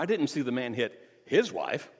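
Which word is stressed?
his. The stress falls on the word his. The man hit someone else's wife. "You mean he slapped somebody else's wife?"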